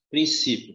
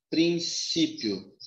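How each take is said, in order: First: Said in the usual way. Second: Princípio slowly, as prin, CÍ, pio; drawn-out syllables. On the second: Shown as a demonstration. Teacher presenting the word to divide, drawn-out princípio syllables. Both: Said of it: "Eu separo ou não?".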